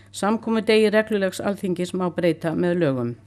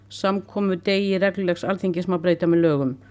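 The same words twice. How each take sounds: Both takes have the same delivery.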